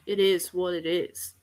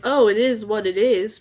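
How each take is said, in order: First: It sounds mean, like a villain. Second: It sounds friendly, like a good guy.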